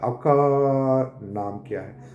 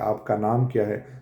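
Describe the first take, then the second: First: A sound in the first word is drawn out. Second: The sentence flows smoothly without any breaks. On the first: The speaker gets stuck and prolongs a sound. "या आपका वो लंबा करेगा" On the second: This is ordinary fluent speech. "आम से अल्फ़ाज़ में कह लो"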